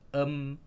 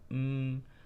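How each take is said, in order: First: A vowel comes before the m sound. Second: The m sound is said alone. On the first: The speaker calls it wrong. "jangan sebut em" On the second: The speaker calls it right. "tapi sebut m"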